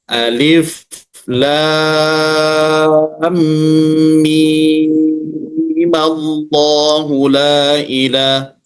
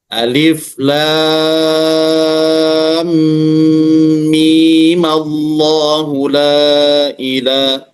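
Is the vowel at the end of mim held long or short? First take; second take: long; short. First: The vowel in mim is held long. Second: The vowel in mim is held short.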